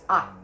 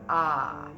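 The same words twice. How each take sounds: First: The vowel is a short, relaxed 'uh'. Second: The vowel is a long, open 'ah'. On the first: The speaker calls it right. "short U H" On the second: The speaker calls it wrong. "not ah"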